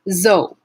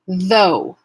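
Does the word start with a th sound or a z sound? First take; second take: z; th. First: It starts with a z sound. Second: It starts with a voiced th sound. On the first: The speaker calls it wrong. "a substitution of another sound, a close sound like Z" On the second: The speaker calls it right. "It's voiced. So as I'm pushing the air through the T H sound at my teeth"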